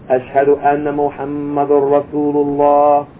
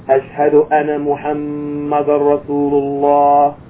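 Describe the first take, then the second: No difference in how they are said.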